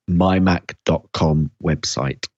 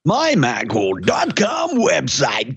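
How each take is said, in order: First: It is said plainly, with little energy. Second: It is said with lively, raised energy. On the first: The speaker calls it wrong. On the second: The speaker calls it right.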